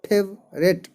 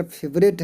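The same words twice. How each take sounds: First: फेवरेट split as फेव, pause, रेट; फेवरेट broken in two for learners; syllable by syllable. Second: Said in the usual way. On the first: Shown as a demonstration. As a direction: say फेवरेट in two separate beats. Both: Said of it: "इसमें खंड खंड मिल करके".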